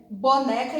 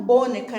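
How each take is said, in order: First: Said in the usual way. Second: BONECA mis-stressed on the first syllable, BO; misplaced stress. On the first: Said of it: "ninguém precisou ensinar pra vocês". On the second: Shown as a demonstration. Teacher showing pupils the wrong reading, stress on BO in boneca. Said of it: "e não boneca".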